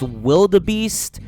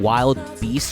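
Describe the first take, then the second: First: It is said with an extra middle syllable. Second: It is said as two words, wild beast. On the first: The speaker calls it wrong. "If this is pronounced wildebeest" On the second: The speaker calls it right. "saying I was pronouncing Wild Beast wrong"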